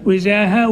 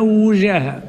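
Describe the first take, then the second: First: وجاه said "wijaha", with i after the و; kasra on the waw. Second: وجاه said "wujaha", with u after the و; damma on the waw. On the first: Teacher showing both vowellings, وجاه with kasra, "wijaha". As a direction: say وجاه as "wijaha", short i first. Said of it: "بكسر الواو". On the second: Teacher showing both vowellings, وجاه with damma, "wujaha". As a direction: say وجاه as "wujaha", rounded u first. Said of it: "وضمها". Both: Shown as a demonstration.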